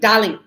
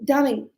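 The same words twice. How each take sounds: First: It is said in a rude, petty tone. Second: It is said in a sweet, polite tone. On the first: The speaker wants to bring the listener down. The speaker calls it wrong. "that's not okay. So you see, the tone of my voice also is different" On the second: The speaker is being kind to the listener. The speaker calls it right. "That is nice"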